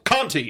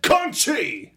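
First: The name is read with a plain English sound. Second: The name is said with its Portuguese sound. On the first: It is a naive reading of the written name. The speaker calls it wrong. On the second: It is the name as its owner says it. The speaker calls it right. "that's the proper Portuguese way"

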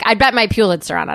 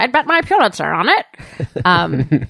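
First: The phrase is said less clearly articulated. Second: The phrase is said more clearly articulated. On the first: The speaker calls it wrong. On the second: The speaker calls it right.

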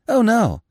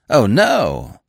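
First: The word no is said with little emphasis. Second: The word no is said with strong emphasis.

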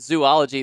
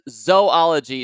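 First: The first syllable sounds like 'zoo'. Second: The first syllable sounds like 'zoh'. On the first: The speaker calls it wrong. "not zoology. There are not three O's after the Z" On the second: The speaker calls it right. "apparently it is pronounced zoology"

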